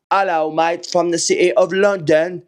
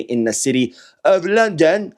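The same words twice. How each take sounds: First: Hammed-up mock English accent; bad English accent. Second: Said in the usual way. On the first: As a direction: badly fake an English accent as a cheery greeting. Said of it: "horrible attempt at an English accent". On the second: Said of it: "attempt at an English accent".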